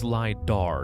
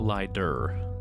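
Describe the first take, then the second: First: The last syllable has an open 'ar' vowel. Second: The last syllable has a reduced 'er' vowel. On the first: The speaker calls it right. "it's L I D A R, not E R" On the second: The speaker calls it wrong.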